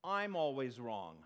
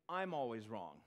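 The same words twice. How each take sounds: First: Slow and loud, I'm hit hard; "I'm" appuyé, lent et fort, pour confesser; stress on I'm. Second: Said in the usual way. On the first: Shown as a demonstration. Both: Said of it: "Whenever me and the Bible disagree".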